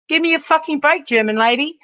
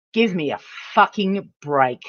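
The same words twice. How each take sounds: First: Exasperated high retort. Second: Said in the usual way. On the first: Real, not acted. Streamer throws it back at German lady, exasperated. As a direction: pitch jumps up in disbelief.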